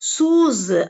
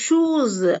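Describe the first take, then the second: First: The word begins with an s sound. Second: The word begins with an sh sound. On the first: The speaker calls it wrong. "சூஸ் அப்படின்னு தமிழ்ல சொல்லுவாங்க" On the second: The speaker calls it right. "இந்த ஷூஸ் அப்படிங்கிற வார்த்தையை"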